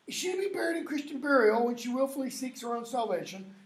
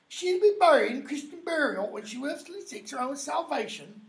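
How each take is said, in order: First: It is spoken in a standard, neutral accent. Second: It is spoken in a Cockney accent.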